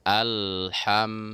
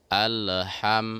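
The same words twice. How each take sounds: First: The L is held smoothly without a bounce. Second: The L is released with a bouncing echo. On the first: The speaker calls it right. "lidah kita itu kita tahan di langit-langit, jangan dijatuhkan" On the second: The speaker calls it wrong. "kalau kita jatuhkan lidah ke bawah, maka dia langsung akan seperti menjadi qalqalah"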